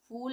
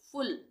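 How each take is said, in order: First: The vowel is a long, drawn-out u sound. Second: The vowel is a short u sound. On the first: The speaker calls it wrong. "फूल नहीं पढ़ेंगे" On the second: The speaker calls it right. "यू के लिए हम छोटे उ का उच्चारण करेंगे"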